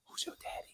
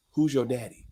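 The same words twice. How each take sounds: First: Breathy whispered question. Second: Said in the usual way. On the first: Acted. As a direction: whisper it, softer. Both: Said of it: "No, I'm serious".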